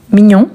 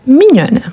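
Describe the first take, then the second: First: "Mignon" said with a nasal ending; "Mignon" with no n sounded at the end; masculine form. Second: "mignonne" said with an open o and a clear n; "mignonne" ending on a sounded n; feminine form. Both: Shown as a demonstration. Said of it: "on va doubler le N".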